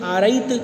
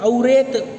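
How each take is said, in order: First: The first vowel is a long 'aa' sound. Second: The second syllable has an 'e' vowel. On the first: "यह भी शुद्ध नहीं है" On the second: "ये भी उचित नहीं है"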